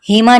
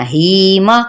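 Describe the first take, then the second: First: Hima said quickly with no held ही; unstretched Hima. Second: Hima with a long held ही, short मा; stretched ही. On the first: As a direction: rush Hima without lengthening the ee. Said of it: "नहीं कहना". (हीमा में ही को बिना खींचे) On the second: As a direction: draw out the ee in Hima. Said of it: "Hima नहीं कहना". (हीमा में ही को खींचें) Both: Shown as a demonstration.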